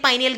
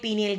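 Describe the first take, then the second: First: The first vowel sounds like 'eye'. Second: The first vowel sounds like 'ee'. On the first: "ഒന്നുകിൽ പൈനിയൽ ഗ്രന്ഥി എന്ന് പറയുക" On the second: "അല്ലെങ്കിൽ പീനിയൽ ഗ്രന്ഥി എന്ന് പറയുക"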